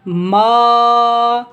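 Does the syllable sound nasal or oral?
oral. The syllable is said without nasal sound. The speaker calls it right. "नाक से आवाज़ को जुदा करके पढ़ना है।"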